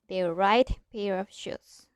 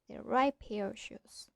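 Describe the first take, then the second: First: The t in right is clearly pronounced. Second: The t in right blends into the p. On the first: The speaker calls it wrong. "We don't say" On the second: The speaker calls it right. "We say"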